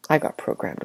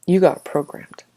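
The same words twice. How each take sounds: First: Whispered confession. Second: Said in the usual way. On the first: Shown as a demonstration. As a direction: drop to a soft whisper on I got programmed. Repeated phrase, varied delivery.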